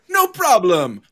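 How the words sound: It is said with an Italian-sounding accent. The speaker calls it wrong.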